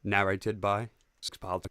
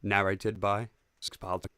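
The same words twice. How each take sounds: First: Slow, low narrator intro, stress on "by". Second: Slow, low narrator intro. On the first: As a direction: announce it slowly, leaning on "by". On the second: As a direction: announce the title slowly. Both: Shown as a demonstration. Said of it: "Need to prep the narrator voice".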